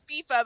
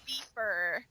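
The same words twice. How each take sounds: First: The word ends in a plain vowel, no R. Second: The word ends with an added R sound. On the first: The speaker calls it right. "I meant to say that it's it's FIFA" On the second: The speaker calls it wrong. "like with an R at the end"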